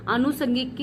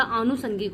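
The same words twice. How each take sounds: First: अनुसंगिक with a short a at the start, anusangik; अनुसंगिक read as the marked error, short first a; wrong version. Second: आनुसंगिक with a long aa at the start, aanusangik; correct version. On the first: Teacher showing students the incorrect form, short a. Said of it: "नहीं होता". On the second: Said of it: "होता है". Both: Shown as a demonstration.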